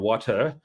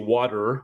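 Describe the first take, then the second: First: The t is clearly pronounced; final r is dropped. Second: The t in the middle sounds like a d. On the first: "English say water or water" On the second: "Americans say water with a D"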